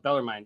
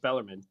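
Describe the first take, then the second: First: Bellarmine with last syllable like "mine"; common pronunciation. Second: Bellarmine with last syllable like "min"; correct pronunciation. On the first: Correcting how everybody says the college's name, Bellarmine said to rhyme with "mine". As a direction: say Bellarmine ending in a long-i "mine". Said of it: "everybody calls it Bellarmine". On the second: Showing co-hosts how the college is pronounced, Bellarmine ending like "min". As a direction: say Bellarmine ending in a short, unstressed "mun". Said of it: "It's pronounced Bellarmine". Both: Shown as a demonstration.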